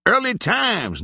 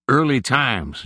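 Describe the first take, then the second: First: Much higher, mock cry of the brand name; cried out. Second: Lightly voiced old Nig, easy and unhurried; a hint of an old drinker naming his whiskey; old man's drawl. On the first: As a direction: call it out high, teasing. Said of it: "cried J-Bone". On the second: Nig answers about the whiskey.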